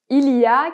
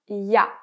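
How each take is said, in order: First: The phrase is said in full, every syllable. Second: The phrase is shortened, with the first sound dropped.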